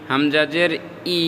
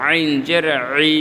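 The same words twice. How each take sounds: First: Said in the usual way. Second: 'আইন' and 'ই' squeezed in the throat; pressed throat Ain. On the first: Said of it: "এটা হলো ই". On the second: Shown as a demonstration. Teacher contrasts Ain with Hamza, 'ই' pressed. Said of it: "pressure দিয়ে বলতে হবে".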